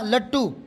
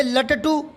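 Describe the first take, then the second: First: लट्टू in two beats, "lat-too"; correct लट्टू. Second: लटटू slowed to "la-ta-too", rising; mispronounced लट्टू. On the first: Teacher correcting pupils, लट्टू as "lat-too". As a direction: double the t of लट्टू, no middle vowel, falling. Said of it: "बीच वाले पे जोर ही नहीं पड़ता". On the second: Teacher showing pupils the error, लटटू as "la-ta-too". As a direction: spell out each beat of लटटू slowly. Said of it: "लटटू थोड़ी होता है". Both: Shown as a demonstration.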